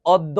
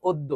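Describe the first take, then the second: First: "অদ্য" as awddo; "অদ্য" said awddo, as the mistake; wrong open vowel. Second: "অদ্য" as oddo; "অদ্য" said oddo, as the correction; correct closed vowel. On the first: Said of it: "অদ্য না, উচ্চারণটি অদ্য". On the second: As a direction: round the first vowel of "অদ্য" to o. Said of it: "উচ্চারণটি অদ্য". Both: Shown as a demonstration.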